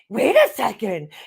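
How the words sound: It is said in an exaggerated, theatrical dramatic tone. It mocks another reader's overdone delivery. The speaker calls it wrong. "But she's making it so dramatic"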